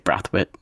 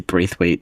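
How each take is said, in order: First: The name is pronounced the Barbadian way. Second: The name is pronounced another common way. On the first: This is how it is said in Barbados. "in Barbados, we would say Brathwaite" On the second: This is how other people say it. "I've heard people say Braithwaite"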